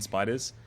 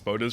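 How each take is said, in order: First: The first vowel sounds like 'eye'. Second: The first vowel sounds like 'oh'. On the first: "rather than spiders" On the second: "why I'm pronouncing it spoders"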